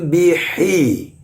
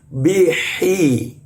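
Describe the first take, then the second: No difference in how they are said.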